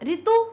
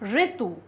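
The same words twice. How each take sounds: First: The word does not begin with a ri sound. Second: The word begins with a ri sound. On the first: The speaker calls it wrong. "गलत शब्द है" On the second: The speaker calls it right. "री का उच्चारण करें"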